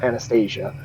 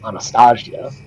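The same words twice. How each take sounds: First: The name is pronounced the usual English way. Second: The name is pronounced the Slavic way. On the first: The speaker calls it wrong. "not Anastasia" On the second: The speaker calls it right. "The proper pronunciation, because it is Slavic, is Anastasia"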